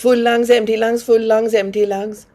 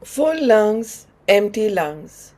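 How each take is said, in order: First: Rapid, run-together rhythmic cue; quick breath count. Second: Unhurried cue, a pause between phrases; slow breath count. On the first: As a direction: drive a brisk in-out breathing rhythm. Cues the sped-up bellows breathing rhythm. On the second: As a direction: pace a long breath in, then out. Cues slow breaths, before speeding up. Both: Real, not acted.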